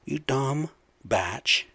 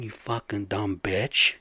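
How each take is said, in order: First: "batch" said with a flat a, softening the insult; mock-polite "batch" in place of bitch. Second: Said in the usual way. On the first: Real, not acted. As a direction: swap bitch for "batch", slowly. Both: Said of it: "I'll say batch".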